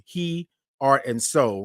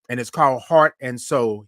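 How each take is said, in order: First: "He, Art and Soul" broken into He, then Art, slowly; splitting the name. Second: Said in the usual way. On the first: Shown as a demonstration. Telling viewers the venue name, slow and split apart.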